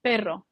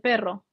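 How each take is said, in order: Both takes have the same delivery.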